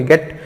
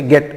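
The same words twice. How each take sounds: First: "गेट" with a long ay vowel, like English gate. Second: "गेट" said abruptly with a short e, like English get. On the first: Teacher contrasting two words for students, "गेट" with long vowel as gate. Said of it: "और ये होता है". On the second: Teacher showing students the short vowel, "गेट" said abruptly as get. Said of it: "एकदम से पढ़ेंगे". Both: Shown as a demonstration.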